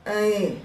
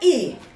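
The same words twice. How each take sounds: First: The vowel is spoken weakly and unclearly articulated. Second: The vowel is spoken loud and clearly articulated. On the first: The speaker calls it wrong. "jangan I" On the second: The speaker calls it right. "ucapkan I"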